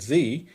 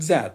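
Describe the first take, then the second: First: The letter is said the American way, zee. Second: The letter is said the British way, zed.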